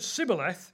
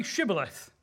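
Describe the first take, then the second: First: Sibboleth with a plain "s" at the start; S instead of SH. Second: Shibboleth with an opening "sh" sound; SH at the start. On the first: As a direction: mispronounce it with a hissed S, Sibboleth. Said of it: "he couldn't pronounce the word correctly". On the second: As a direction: say Shibboleth with a clear hushing SH. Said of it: "If he said Sibboleth". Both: A narrator's reading.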